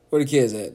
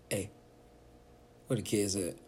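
First: Louder call. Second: Quiet question. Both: Pretend. Parent checking on quiet kids.

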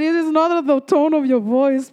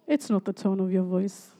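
First: Firm stress on NOT in "It is not"; emphatic restatement. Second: Low, soft and measured rebuke; quiet correction. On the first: Preacher repeats God's words to congregation, "not" firmly emphasized. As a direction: restate it in full voice, driving home "not". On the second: God privately corrects the praying speaker, low and quiet. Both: Retold or imitated.

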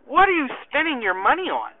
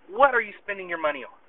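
First: Raised-pitch, emphatic question; puzzled questioning. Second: Serious. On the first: Sergeant quizzing his soldier about his budget, puzzled. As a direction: ask it openly, with a lift on WHAT. First asking, before the serious retake. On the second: Sergeant pressing his soldier privately about money, seriously. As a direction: drop the joking and ask in earnest. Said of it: "No, seriously". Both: Retold or imitated.

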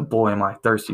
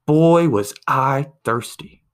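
First: Said in the usual way. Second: Slow, loud, satisfied sigh of a line; drawn-out loud punchline. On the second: Retold or imitated. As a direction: stretch it out like the last gulp of relief. Punchline, man finally drank.

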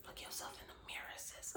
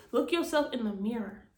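First: Sudden soft whisper. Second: Said in the usual way. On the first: Real, not acted. Urging her listeners to face the mirror, whispered. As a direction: lean in and whisper it like a secret. Repeats line, then whispers it.

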